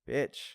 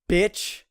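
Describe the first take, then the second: First: The word is said in a mild, casual tone. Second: The word is said in a harsh, cutting tone. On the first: It is not meant as a real insult. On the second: It is meant as a real insult.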